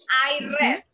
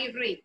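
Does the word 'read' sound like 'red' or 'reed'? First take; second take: red; reed. First: The verb rhymes with 'bed', like 'red'. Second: The verb rhymes with 'need', like 'reed'. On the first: The reading happened in the past. "en pasado no se pronuncia igual... como si fuera el color rojo" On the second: The reading happens in the present. "Yo leo"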